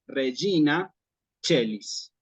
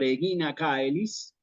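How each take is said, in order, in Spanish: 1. 'Caelis' empieza con sonido de 'ch'. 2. 'Caelis' empieza con sonido de 'k'. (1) "estamos acostumbrados a decir Regina Celis" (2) "Cicerón hubiera dicho Regina Caelis"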